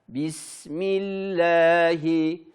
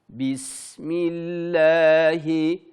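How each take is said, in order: No difference in how they are said.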